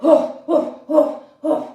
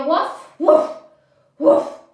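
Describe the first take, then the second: First: Louder, grumbling woof, woof like a cross dog; a mock angry dog's woof. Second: Dog bark. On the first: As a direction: bark like an angry dog, playfully. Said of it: "Be an angry dog". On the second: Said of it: "Can I hear you". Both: Shown as a demonstration.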